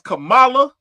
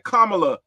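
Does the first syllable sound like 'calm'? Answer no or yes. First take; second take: no; yes. First: The first syllable does not sound like 'calm'. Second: The first syllable sounds like the word 'calm'. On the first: This is the name as most people said it. "We all was saying her name as Kamala" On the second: This gives the name an Indian flair. "like with the C O M, like a calm, calm"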